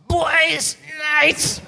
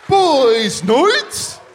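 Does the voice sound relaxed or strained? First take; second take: strained; relaxed. First: It is said straining, like lifting a box. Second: It is said in a relaxed, normal voice.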